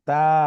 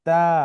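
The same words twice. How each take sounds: No difference in how they are said.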